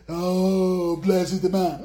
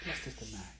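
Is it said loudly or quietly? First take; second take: loudly; quietly. First: It is said loudly and grandly. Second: It is said quietly and simply.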